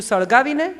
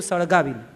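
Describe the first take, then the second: First: સળગાવીને asked with a rising tune; સળગાવીને lifted at the end as a question; સળગાવીને higher and rising, puzzled. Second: સળગાવીને said lower with a falling tune; સળગાવીને low and firm, a calm reply; flat answer. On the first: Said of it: "બાએ પૂછ્યું". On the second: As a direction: settle it: સળગાવીને falling and final. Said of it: "બાપુએ કીધું". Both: Acted.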